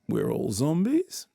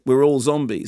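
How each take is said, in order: First: The voice rises at the end. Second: The voice falls at the end. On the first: It repeats the idea with a knowing, ironic twist. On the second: It is a plain statement.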